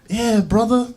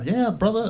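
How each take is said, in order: First: High, loud Aussie "Yeah, brother"; Australian accent, pitched up. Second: Second try at the Aussie "Yeah, brother"; Australian accent. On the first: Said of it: "with this Australian accent". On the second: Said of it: "I can't, I can't do it". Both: Retold or imitated.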